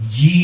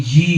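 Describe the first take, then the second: No difference in how they are said.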